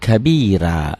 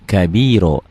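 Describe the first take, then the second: First: The final vowel sounds like 'a'. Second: The final vowel sounds like 'o'. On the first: The speaker calls it wrong. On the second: The speaker calls it right. "Ini ganti dengan O-nya ya"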